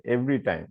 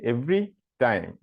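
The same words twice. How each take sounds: First: "every time" run together without a gap; joined as one. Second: "every time" with a gap between "every" and "time"; split in two. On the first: Teacher correcting it for the student, "every time" joined as one word. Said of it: "দুইটা একসাথেই হবে". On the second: Teacher showing an old mistaken idea, "every time" split in two. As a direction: say "every time" as separate words, "every", then "time". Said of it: "এই দুইটা আলাদা". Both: Shown as a demonstration.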